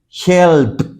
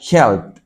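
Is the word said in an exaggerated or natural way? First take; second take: exaggerated; natural. First: The ending is drawn out and overarticulated. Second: The ending is said quickly and smoothly. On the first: "Estoy exagerando" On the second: "Un poco más natural sería"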